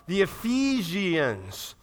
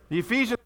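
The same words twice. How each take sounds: First: "Ephesians" very slow, each syllable drawn out; slow-motion "Ephesians" with the ending spelled out by voice; stretched ending. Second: Said in the usual way. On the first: Shown as a demonstration. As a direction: stretch "Ephesians" out to a long, separate -i-ans.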